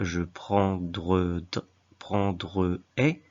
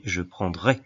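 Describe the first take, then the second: First: Prendre-ai broken into slow syllables; prendre-ai with the middle "e" sounded; wrong form prendre-ai. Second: Said in the usual way. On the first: Shown as a demonstration. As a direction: keep the whole "prendre", then tack on "ai". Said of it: "on ne dit pas". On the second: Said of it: "mais je prendrai".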